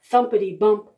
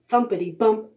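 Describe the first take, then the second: No difference in how they are said.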